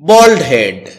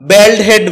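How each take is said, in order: First: The vowel in 'bald' sounds like 'ball'. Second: The vowel in 'bald' sounds like 'bad'. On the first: The speaker calls it right. "যার সঠিক উচ্চারণ হচ্ছে বল্ড head" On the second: The speaker calls it wrong. "এটাকে আমরা ব্যাল্ড head বলে থাকি"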